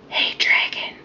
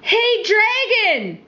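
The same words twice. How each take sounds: First: It is whispered very softly. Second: It is shouted very loudly.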